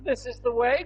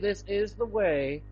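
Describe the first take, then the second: First: It is said in a posh English accent. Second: It is said in a Southern American accent. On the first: "spoke in a posh English accent" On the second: "like the Southern American"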